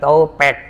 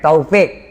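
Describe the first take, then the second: First: The word is said as to-pek. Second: The word is said as tau-fik. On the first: The speaker calls it wrong. "bukan topek" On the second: The speaker calls it right. "Bukan topik, bukan topek, taufik"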